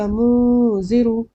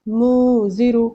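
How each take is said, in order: Both takes have the same delivery.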